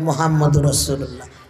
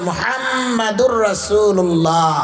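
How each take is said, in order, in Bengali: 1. এটি 'Mohammad Rasullah' হিসেবে বলা হয়, ছোট করে। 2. এটি 'Muhammadur Rasulullah' হিসেবে বলা হয়, পুরোপুরি। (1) "নবীর নামে বিয়াদবি বলে" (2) "নাম হচ্ছে মুহাম্মাদুর রাসূলুল্লাহ"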